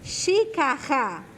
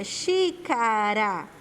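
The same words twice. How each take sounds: First: XÍCARA with a throaty H-like R, "xicaha"; wrongly strong R. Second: XÍCARA stretched, with a light tapped R; weak R. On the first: Teacher shows what strong R would give, slow xícara as "xicaha". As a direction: swap the tap in xícara for a strong aspirated R. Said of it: "Se o som dele fosse forte". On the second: Teacher explains why it is weak, slow xícara with tapped R. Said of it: "ele tem o som fraco". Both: Shown as a demonstration.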